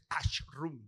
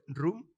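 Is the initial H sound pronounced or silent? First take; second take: pronounced; silent. First: The initial H is pronounced aloud. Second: The initial H is silent. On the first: The speaker calls it wrong. "uno me dijo el otro día" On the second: The speaker calls it right. "la H en español es, es silenciosa, no se pronuncia"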